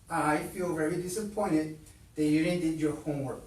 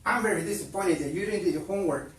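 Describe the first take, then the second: First: It is said in a calm voice. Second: It is said in a loud yell.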